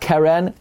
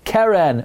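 First: The stress is on the last syllable. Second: The stress is on the first syllable. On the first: The speaker calls it wrong. "not Keren" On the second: The speaker calls it right. "it's a mil el"

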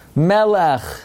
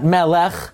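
First: The stress is on the first syllable. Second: The stress is on the last syllable. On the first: The speaker calls it right. "every time you have two segels in a row, it's a mil el" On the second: The speaker calls it wrong. "not Melech"

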